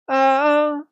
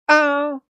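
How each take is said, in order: First: The vowel starts softly with a gradual onset. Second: The vowel starts with a sharp glottal catch. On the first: "it's kind of easing in" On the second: "that pop of that glottal start"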